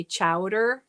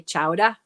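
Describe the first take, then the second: First: "Chowder" with the final R sounded; usual chowder, R sounded. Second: "chowder" as "chow-dah", no final R; R-less "chowder" with rising end; Boston-style chowder. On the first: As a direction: say "Chowder" ending in -er. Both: Shown as a demonstration. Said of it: "You say chowder".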